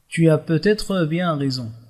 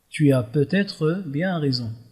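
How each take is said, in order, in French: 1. Chaque mot est soigneusement articulé et bien enchaîné. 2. Chaque mot est soigneusement articulé et bien enchaîné.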